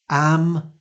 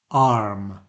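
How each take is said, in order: First: AM with a short open front a; short front vowel. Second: ARM with a long back ah; long back vowel. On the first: Teacher contrasting a minimal pair, short front vowel. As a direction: say AM with the a of cat, pitched up. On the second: Teacher contrasting a minimal pair, long back vowel. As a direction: say ARM with an open ah, falling. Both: Shown as a demonstration. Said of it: "some more minimal pairs to look at".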